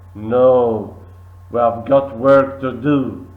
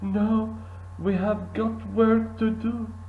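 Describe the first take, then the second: First: The voice sounds annoyed and irritated. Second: The voice sounds scared and frightened. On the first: "Leif said annoyed" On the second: "Leif is frightened here"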